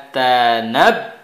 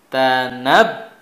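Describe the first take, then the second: Both takes have the same delivery.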